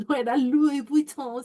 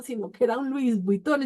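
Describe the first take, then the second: First: "Louis Vuitton" said through a laugh, slower; real amused giggle on "no era Louis Vuitton"; laughing aside. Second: Said in the usual way. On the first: Real, not acted. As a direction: chuckle while correcting herself about "Louis Vuitton".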